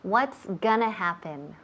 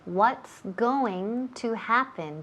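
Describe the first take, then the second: First: Going to is reduced to a quick gonna. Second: Going to is said fully as two words. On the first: This is very colloquial. "ese gonna es muy coloquial" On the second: This is the formal form. "vamos a usar la forma formal"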